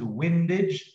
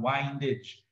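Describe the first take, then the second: First: The first syllable rhymes with tinned. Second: The first syllable rhymes with find. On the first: It comes from wind, the moving air. The speaker calls it right. "the word is windage ... it is to do with wind, the air" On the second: It comes from windings, as in coils. The speaker calls it wrong. "not windage ... it has nothing to do with windings"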